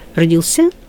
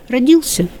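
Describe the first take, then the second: First: The stress falls on the final ending. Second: The stress stays on the stem. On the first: This is the older, archaic norm. "это старшая норма, звучит архаично" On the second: This is the modern norm. "вполне современно"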